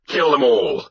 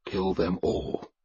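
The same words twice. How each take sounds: First: High, forceful battle cry; war leader's raised yell; shouted. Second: Quiet, slow prayer; a slow, softly spoken plea to a god. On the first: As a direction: shout it to rouse the warriors. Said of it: "I shouted". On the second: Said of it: "I prayed to Thor". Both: Acted.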